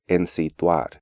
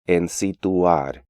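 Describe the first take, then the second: First: The diphthong is said as one syllable. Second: The diphthong is split into two syllables. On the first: The speaker calls it right. "when more accurate pronunciation is" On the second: The speaker calls it wrong. "Even advanced students tend to pronounce these words as"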